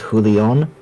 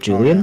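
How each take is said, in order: First: The name is said with Spanish pronunciation. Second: The name is said with English pronunciation. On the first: The speaker calls it right. "Apparently, it is Julian ... It's the Spanish uh, name" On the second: The speaker calls it wrong.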